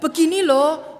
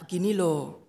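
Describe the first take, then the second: First: The voice is raised higher and louder. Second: The voice is fairly low and calm. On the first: Patience is starting to run out. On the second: Advice is given patiently.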